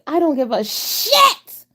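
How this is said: It is said angrily, like Kimmy.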